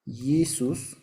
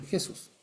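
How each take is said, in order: First: Jesús said as YI-sus, y for j; Latin pronunciation. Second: Jesús as he-SUS, with a rasped Spanish j; Spanish pronunciation. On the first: Teacher showing the Latin stage, Jesús as YI-sus. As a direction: begin Jesús with a long yi sound. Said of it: "Esto pasa al latín". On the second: Teacher showing the Spanish outcome, Jesús as he-SUS. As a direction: give Jesús the Spanish j and final stress. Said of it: "da en nuestro español". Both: Shown as a demonstration.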